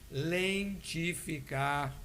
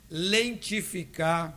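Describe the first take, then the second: First: The word is said very slowly. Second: The word is said at a normal pace.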